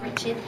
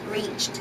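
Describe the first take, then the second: First: The ending has an extra vowel sound before it. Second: The ending is a plain T sound, no extra vowel. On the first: The speaker calls it wrong. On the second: The speaker calls it right.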